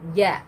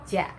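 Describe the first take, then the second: First: The consonant is soft, close to a y. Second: The consonant has a hard ch-like burst. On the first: The speaker calls it right. "tanpa ada bunyi c-nya" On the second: The speaker calls it wrong. "ja ada c-nya"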